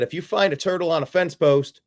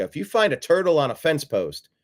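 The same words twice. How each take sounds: First: Said in the usual way. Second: Mild Hillary read. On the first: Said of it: "without the accent". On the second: Retold or imitated. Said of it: "Try to do my Hillary without the accent".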